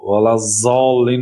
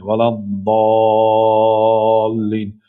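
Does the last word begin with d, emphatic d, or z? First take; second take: z; emphatic d. First: The last word begins with a z sound. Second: The last word begins with an emphatic d sound. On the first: The speaker calls it wrong. "ولا زالین هم نمیگوید" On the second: The speaker calls it right. "زبان را به کام بالا چسبانده تلفظ میکنید"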